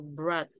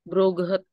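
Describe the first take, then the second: First: The word is said as a single syllable. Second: The word is said as two syllables, ending -get. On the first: The speaker calls it right. "Dibacanya kayak berat gitu" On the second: The speaker calls it wrong. "jangan bacanya broget ya"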